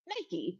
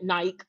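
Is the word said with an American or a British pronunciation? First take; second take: American; British. First: It is said with an American pronunciation. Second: It is said with a British pronunciation.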